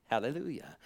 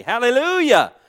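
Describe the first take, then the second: First: Soft hallelujah. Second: Hallelujah cried out high and loud. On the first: Pastor closing a quiet point, soft murmured praise. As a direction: let Hallelujah fall away quietly. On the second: Pastor praising God at the peak of his sermon, loud cry. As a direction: throw Hallelujah up to the rafters. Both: Real, not acted.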